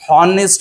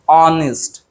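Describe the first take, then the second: First: The word begins with an audible h sound. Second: The word begins with a vowel, no h sound. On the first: The speaker calls it wrong. "हॉनेस्ट नाही म्हणत आपण" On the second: The speaker calls it right. "ऑनेस्ट बोलत असतो"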